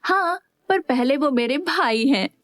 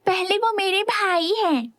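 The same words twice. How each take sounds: First: Making a face. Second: Put-on much higher, childlike teasing voice; childishly. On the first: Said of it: "Vishu मुंह बनाते हुए बोली". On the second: Sister squabbling with her son over her brother, childish. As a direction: say it like a squabbling kid. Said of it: "बच्चों की तरह बोली". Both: A narrator's reading.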